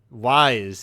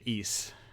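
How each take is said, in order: First: The name sounds like the word wise. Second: The name sounds like the word east. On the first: The speaker calls it wrong. "as I called it for a very long time" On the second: The speaker calls it right. "you pronounce it east"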